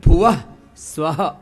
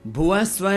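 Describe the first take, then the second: First: भुवः स्वः with स्वः stretched into swaha; right way. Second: भुवः स्वः said short and clipped, without the trailing aha; quick wrong भुवः स्वः. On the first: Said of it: "ऐसा।". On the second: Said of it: "नहीं". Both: Shown as a demonstration.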